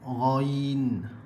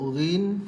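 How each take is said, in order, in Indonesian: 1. Vokalnya adalah diftong 'ai' yang meluncur. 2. Vokalnya adalah bunyi 'i' pendek yang biasa. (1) "Yang tepat lagi ghain" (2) "kalau kita nak sebut ghin boleh, tak ada masalah... kurang tepat"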